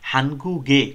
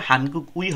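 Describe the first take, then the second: First: The ending is linked and said as 'ge'. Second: The ending is said as a separate 'ui'. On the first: The speaker calls it right. "উচ্চারণ হবে" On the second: The speaker calls it wrong. "হয় না"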